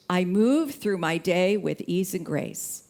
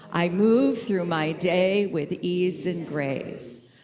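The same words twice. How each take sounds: First: Said in the usual way. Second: Slow, deliberate repeat of the affirmation. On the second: Shown as a demonstration. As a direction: let each word land slowly. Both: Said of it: "how are we gonna move through the day?".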